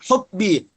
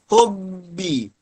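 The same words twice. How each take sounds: First: The b is crisp, voiced and abruptly stopped. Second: The b is breathy, with sound flowing out. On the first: The speaker calls it right. "syiddah dan jahar" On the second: The speaker calls it wrong. "Jangan dibaca hubbi, hubbi. Salah"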